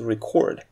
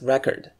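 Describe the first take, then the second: First: The stress is on the second syllable. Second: The stress is on the first syllable. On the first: It is a verb. "don't forget to change the stress when using it as a verb" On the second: It is a noun meaning a piece of information. "The next is record"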